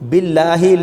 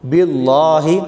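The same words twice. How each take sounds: First: The L sound is thin and light. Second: The L sound is thick and heavy. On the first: The speaker calls it right. "लाम बरीक पढ़ेंगे" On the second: The speaker calls it wrong. "लोग इसको भी मोटा पढ़ देते हैं, ऐसे नहीं पढ़ना"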